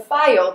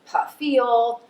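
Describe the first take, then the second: First: The name is said plainly, without added syllables. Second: The name is said with an added extra syllable. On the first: The speaker calls it right. "my last name, File, is as easy as hooked on phonics" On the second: The speaker calls it wrong. "they tend to add in extra syllables or additional letters"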